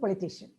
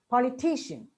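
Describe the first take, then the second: First: The stress is not on the 'ti' syllable. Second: The stress is on the 'ti' syllable. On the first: The speaker calls it wrong. "unless we know this, we say" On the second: The speaker calls it right. "politician on t"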